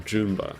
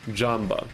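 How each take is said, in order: First: The first vowel sounds like 'oo'. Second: The first vowel sounds like 'ah'. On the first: The speaker calls it wrong. "is not Joomba" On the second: The speaker calls it right. "you mean Ja, like Jamba"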